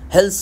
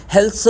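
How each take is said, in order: Both takes have the same delivery.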